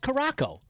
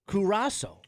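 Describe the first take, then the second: First: The name ends with a hard 'co' sound. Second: The name ends with a 'sow' sound. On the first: The speaker calls it wrong. "if you were looking at it, you'd be like" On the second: The speaker calls it right. "it's pronounced Curaçao"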